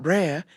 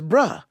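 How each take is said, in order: First: The word ends with an r sound. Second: The word ends on an open vowel, no r. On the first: "It's not brer" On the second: "it's bruh"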